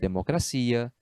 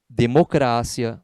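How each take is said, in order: First: The stress falls where Portuguese places it. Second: The stress falls where Spanish places it. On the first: "no lugar de" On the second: "tem a sílaba tônica diferente do português"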